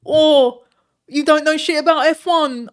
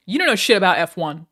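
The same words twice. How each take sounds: First: Loud, high, put-on ranting voice; Hassan impression. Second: Loud ranting insult at chat; mock angry yell. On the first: Streamer mimicking rival for chat, put-on yell. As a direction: shout it like an outraged rival streamer. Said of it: "was it a good Hassan?". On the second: Streamer insulting chat on request, mock furious yell. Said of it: "that would, like, help the brand".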